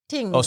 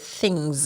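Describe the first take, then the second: First: The word begins with a plain t sound. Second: The word begins with a th sound. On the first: "Jamaican have this thing of taking off the H off words" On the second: "we don't say things"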